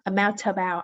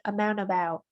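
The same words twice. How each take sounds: First: The T sound is fully released. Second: The T sound is cut off. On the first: The speaker calls it wrong. "not amount about" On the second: The speaker calls it right. "when T is after N, that T is chopped"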